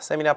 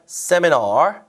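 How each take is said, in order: First: It ends on a plain vowel with no r. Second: It ends with a clear r sound. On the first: The speaker calls it wrong. "세미나가 아니라" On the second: The speaker calls it right. "널 끝에 얼 발음 잘 해주시고요"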